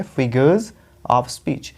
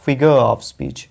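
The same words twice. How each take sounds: First: "figures of speech" as FI-guhz av speech; plural z sound. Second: Slow "figure of speech" as FI-guh, no z; singular, silent R. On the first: Teacher contrasts it with the singular, "figures of speech" with voiced z. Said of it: "यहाँ पे एस है तो हम बोलेंगे". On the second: Teacher shows the term without s, "figure of speech" as FI-guh av speech. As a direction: leave both r and z off "figure of speech". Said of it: "अगर एस हटा देंगे". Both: Shown as a demonstration.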